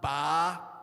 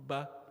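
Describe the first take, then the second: First: The vowel is said with a very wide opening. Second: The vowel is said with a moderate opening. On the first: The speaker calls it wrong. "not a too wide opening... So we don't say a, ba" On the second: The speaker calls it right. "So moderate"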